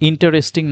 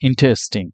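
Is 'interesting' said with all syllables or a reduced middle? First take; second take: all syllables; reduced middle. First: Every written syllable is pronounced fully. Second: The middle syllable is reduced or dropped. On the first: The speaker calls it wrong. "ইন্টারেস্টিং না বলে" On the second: The speaker calls it right. "ইন্টারেস্টিং না বলে ইন্টারেস্টিং"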